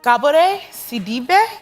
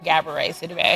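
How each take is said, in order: First: The name is said with a Senegalese pronunciation. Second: The name is said with an American pronunciation.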